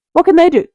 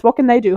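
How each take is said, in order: First: Excited. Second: Said in the usual way. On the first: Real, not acted. Emphatic rhetorical question.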